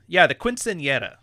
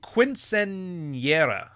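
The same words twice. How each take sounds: First: Quinceañera said at normal speed, confidently; confident retry. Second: Quinceañera sounded out very slowly, syllable by syllable; careful attempt. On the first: Podcaster settling on the Spanish word. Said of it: "That's the one". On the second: Podcaster struggling to pronounce the Spanish word. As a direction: spell out quinceañera slowly, unsure. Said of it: "I can't pronounce that". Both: Shown as a demonstration.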